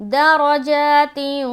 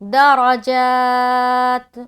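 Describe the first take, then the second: First: The word ends with an added i vowel. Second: The word ends on the consonant t. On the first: The reciter joins it to the next word. "मिलाने की सूरत में" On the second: The reciter stops after this word. "रुकने की सूरत में"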